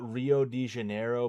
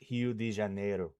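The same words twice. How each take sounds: First: The name has an English-style pronunciation. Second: The name has a Portuguese-style pronunciation. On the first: This is how English speakers say it. "we call we call it" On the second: This is how local people say it. "is how they pronounce it"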